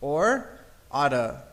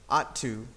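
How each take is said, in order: First: The word 'to' is reduced to 'a'. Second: The word 'to' is said in full. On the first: "Some people say oughta" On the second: "say it with me"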